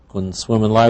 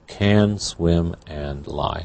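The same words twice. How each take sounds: First: 'Can' is weakened to a short reduced vowel. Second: 'Can' is said fully with a clear vowel.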